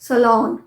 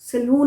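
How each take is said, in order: First: The final syllable does not sound like 'noo'. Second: The final syllable sounds like 'noo'. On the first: The speaker calls it right. "नू नहीं है" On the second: The speaker calls it wrong. "सलून नहीं, नू नहीं है"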